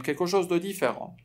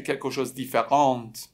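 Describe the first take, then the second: First: "دو" set between "کلکوشوز" and "دیفران"; correct form with "de". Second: "کلکوشوز" run straight into "دیفرانت"; wrong form without "de". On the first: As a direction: say "کلکوشوز دو دیفران", linking word included. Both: Shown as a demonstration.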